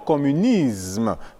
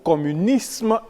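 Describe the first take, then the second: First: The s before m sounds like z. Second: The s before m sounds like s. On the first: The speaker calls it wrong. "et non" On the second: The speaker calls it right. "plutôt"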